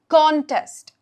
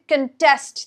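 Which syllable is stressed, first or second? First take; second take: first; second. First: The stress is on the first syllable. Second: The stress is on the second syllable. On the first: It is a noun meaning a competition. "every time it's in the noun form, we are stressing the first part" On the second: It is a verb meaning to compete in or challenge. "Verb form, we're stressing the second part"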